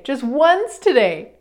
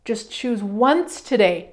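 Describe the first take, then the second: First: "once" leaned on, slow and firm; stress on once. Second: Said in the usual way. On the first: Shown as a demonstration. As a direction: hit "once" slowly.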